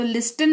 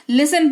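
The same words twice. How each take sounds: First: लिस्टन with an audible T; wrong pronunciation. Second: लिसन with no T; correct pronunciation. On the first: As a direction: say लिस्टन, T after the S. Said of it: "तो लिस्टन नहीं". (गलत उच्चारण, लिस्टन में ट बोलकर) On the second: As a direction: say लिसन, S straight into the vowel. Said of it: "लिसन पढ़ेंगे". (सही उच्चारण, लिसन में ट मौन) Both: Shown as a demonstration.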